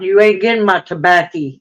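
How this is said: It is said in a strong Southern accent.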